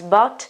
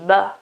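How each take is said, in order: First: The final T sound is clearly pronounced. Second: The final T sound is dropped. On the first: "the American pronunciation is obviously with the final T" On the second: "English English pronunciation may be also without the final T"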